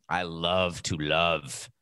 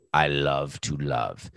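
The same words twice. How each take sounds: First: Slow, dramatic actor's delivery; milk it like a stage actor; hammy stage actor. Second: Slow, drawn-out theatrical line; hammy stage actor. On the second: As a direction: deliver it like a ham actor. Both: Pretend. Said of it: "I say it like an actor now".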